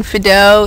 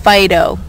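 First: "Fido" said the French way, as FEE-doh; "Fido" with a short ee sound, FEE-doh, stress on the first syllable. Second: "Fido" said as FIE-doh, with a long eye sound, the way Americans read it; "Fido" with the stress on FIE, like the dog name. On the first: [name] explains her French name, saying "Fido" as FEE-doh. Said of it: "It's French". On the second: [name] mimics how Americans say her name, "Fido" as FIE-doh. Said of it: "everything's phonetic". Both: Shown as a demonstration.

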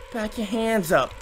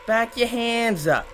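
No difference in how they are said.

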